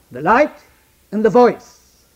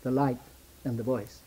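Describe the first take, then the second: First: The light and the voice, called out loud and high; proclaimed loud. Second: The light and the voice, dropped soft and low; hushed. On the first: Preacher proclaiming The light and the voice to the congregation, loud. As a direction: ring out The light and the voice. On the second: Preacher echoing the light and the voice softly to the congregation. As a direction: fold the light and the voice into a hush. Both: Shown as a demonstration. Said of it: "There is always the light and the voice".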